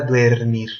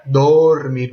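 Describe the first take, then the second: First: "duermir" with ue in the first syllable; wrong infinitive. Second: "dormir" with a long, plain o in the first syllable; root vowel shown. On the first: Teacher shows students the false infinitive, "duermir" with a ue glide. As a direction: say "duermir" as dwer-MEER, diphthong wrongly in the root. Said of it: "no era duermir". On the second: Teacher contrasts for students, "dormir" with drawn-out plain o. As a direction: stretch the o: dooor-MEER for "dormir". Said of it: "pero el verbo era dormir". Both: Shown as a demonstration.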